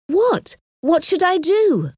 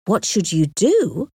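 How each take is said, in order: First: Much higher, urgent questioning; anxious pleading. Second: Slow echo at everyday pitch; puzzled echo. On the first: Harriet waits on Emma's advice about the proposal, asking high and anxious. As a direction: press for an answer, pitch jumping up. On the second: Emma answers Harriet's plea for advice, echoing it slowly in puzzlement. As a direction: hand the question back, slowly. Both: A narrator's reading.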